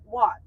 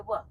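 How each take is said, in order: First: Said in the usual way. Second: "what" said the Bajan way, final t dropped; Bajan pronunciation. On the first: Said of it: "Instead of saying, yeah, like "what?". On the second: Shown as a demonstration. Guide repeating the example for visitors, Bajan "what" without its t. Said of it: "we would say "what?".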